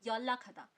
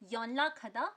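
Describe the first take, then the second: First: The first syllable ends in l. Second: The first syllable ends in n. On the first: "pronounce करेंगे 연락하다" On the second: "लिखेंगे 연락하다"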